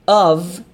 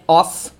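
First: "of" ending in a voiced v sound; "of" pronounced with a v, not f. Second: "of" ending in a hissed f, like "off"; "of" with an unvoiced final f; mispronounced OF. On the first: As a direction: say "of" as "ov", buzzing the final v. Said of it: "Esse aqui é com som de V". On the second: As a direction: say "of" wrongly as "off". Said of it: "aqui não é of". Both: Shown as a demonstration.

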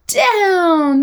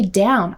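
First: "down" held long and high, then falling; playful crashing DOWN. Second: Said in the usual way. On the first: Shown as a demonstration. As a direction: knock the blocks over with a long, high "down". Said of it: "that loud sound while I'm saying". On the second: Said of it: "I don't just say down".

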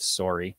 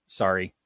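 First: "sorry" as sore-ee; rounded Canadian vowel in "sorry"; Canadian pronunciation. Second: "sorry" as sah-ree; standard American pronunciation. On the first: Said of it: "which you never say anyway". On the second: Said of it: "standard American accent". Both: Shown as a demonstration.

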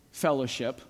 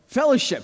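First: Said in the usual way. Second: "Fellowship" said higher and louder, with a laugh, falling; emphasized word. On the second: Shown as a demonstration. Pastor stressing "Fellowship" to the congregation, punched high. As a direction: land hard on "Fellowship" and let it drop. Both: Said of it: "I emphasize the word".

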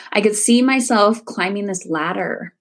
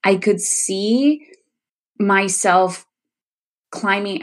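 First: Said in the usual way. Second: Slow, halting, pausing between phrases; real emotion rising, words coming haltingly; getting emotional. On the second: Real, not acted. Recalling her hypnotherapy vision, getting emotional. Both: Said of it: "here it comes again, these emotions".

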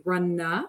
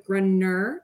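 First: "grunna" ending in an open uh, no r; er changed to uh. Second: Said in the usual way. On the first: Shown as a demonstration. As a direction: say "grunna" with an Australian-style uh ending. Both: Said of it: "I had to change er to uh".

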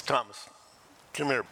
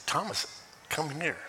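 First: A stern, no-nonsense call; firm summons. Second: Loving. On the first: Jesus summoning doubting Thomas, mildly stern. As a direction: call him over like a talk is due. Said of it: "We need to talk / But it's loving". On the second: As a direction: call him over tenderly, with love. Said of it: "But it's loving". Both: Shown as a demonstration.

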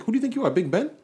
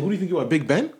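First: Much higher, loud indignant mimicry; heightened sneering quote of the client; mocking the rude client again. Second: Loud, high mock indignation; sneering quote of the client; mocking the rude client. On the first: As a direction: push the arrogance further up. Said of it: "He's like". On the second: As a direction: throw his arrogant line back, louder. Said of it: "he's like".

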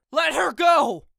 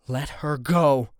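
First: Loud high desperate scream. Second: Low warning. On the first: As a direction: scream it, ready to attack. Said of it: "I scream". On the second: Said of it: "warn him". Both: A narrator's reading.

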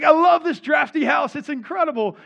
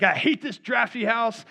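First: High, loud, elated exclamation; overjoyed. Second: Mildly raised, mock-angry grumble; imitating a man venting frustration; angry at life. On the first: Retold or imitated. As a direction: act out a man reborn, thrilled with everything. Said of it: "kind of reborn". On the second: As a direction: act out fed-up exasperation with the house. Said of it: "he's angry at life".

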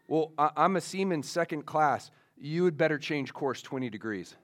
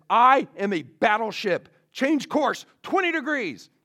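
First: Said in the usual way. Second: Loud, much higher, indignant command; furious captain. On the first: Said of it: "a message comes back". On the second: Retold or imitated. Furious captain ordering the other ship aside, loud and indignant. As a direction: pull rank in acted fury. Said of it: "now the captain is furious".

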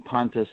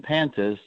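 First: Pontus with an open ah, PAHN-tus; "Pontus" opening like "pond"; correct pronunciation. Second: Pantus with a short a, as in pant; "Pantus" with a flat American first vowel; Americanized pronunciation. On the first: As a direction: say "Pontus" with a broad first vowel. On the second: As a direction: say "Pantus" as PAN-tus. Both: Shown as a demonstration. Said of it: "the difference between Pontus and Pantus".

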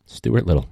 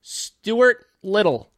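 First: Said in the usual way. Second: High, slow, stretched name; drawn-out high announce. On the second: Pretend. Voicing the title Stuart Little, high and slow.

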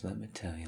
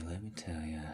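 First: Said in the usual way. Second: Breathy secret whisper. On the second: Acted. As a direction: lean in and whisper it. Repeated line, whispered second take.

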